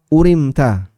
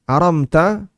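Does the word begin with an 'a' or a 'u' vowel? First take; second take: u vowel; a vowel. First: The word begins with a 'u' vowel. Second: The word begins with an 'a' vowel. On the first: "wa ruya bi dhammil hamzah wa kasr ra" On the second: "aramta dengan fathah hamzah dan sukun mim"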